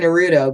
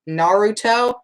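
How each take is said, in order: First: It is said with an American pronunciation. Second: It is said with a Japanese-style pronunciation. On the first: "it's just more of an American thing to me" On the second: "I don't like saying it that way"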